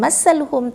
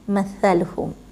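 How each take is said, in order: First: The middle consonant is a hissing s sound. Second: The middle consonant is a soft th sound. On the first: The speaker calls it wrong. "kebanyakan orang baca masaluhum, sedangkan dia bukan masaluhum" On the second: The speaker calls it right. "tetapi mathaluhum"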